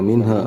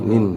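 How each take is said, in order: First: The final h is followed by a full vowel. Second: The final h is released as breath only. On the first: The speaker calls it wrong. "tapi enggak minha" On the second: The speaker calls it right. "Jadi keluar huruf haknya"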